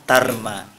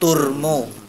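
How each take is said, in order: First: The syllables are said with an a vowel. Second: The syllables are said with a u vowel. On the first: "Kalau dibaca fathah" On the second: "Kalau dibaca domah"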